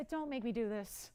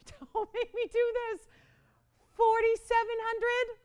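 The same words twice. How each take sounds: First: Said in the usual way. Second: High, louder, laughing whine; whiny mock plea. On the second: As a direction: beg like a playful child, pitch way up. Repeats begging for lower price.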